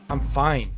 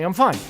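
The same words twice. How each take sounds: First: It sounds downcast and unconvincing. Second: It sounds upbeat and convincing. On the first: The person is actually not fine. "Everybody knows you're not fine" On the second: The person really is fine. "Compared to this, no, really"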